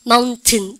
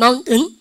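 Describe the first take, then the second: First: "마운틴" as maun-teun with a clear T; British T. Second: "마운틴" as maun-eun with a push on eun; strained dropped T. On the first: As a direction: sound the T in "마운틴". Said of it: "영국 애들은 특 발음 살리세요". ("마운틴"의 티를 살려서) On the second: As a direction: hit the T-less ending of "마운틴". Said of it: "은을 힘을 줘야 돼". ("마운틴"의 은에 힘주어) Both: Shown as a demonstration.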